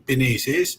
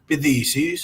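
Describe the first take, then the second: First: It is said in the N dialect. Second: It is said in the TH dialect.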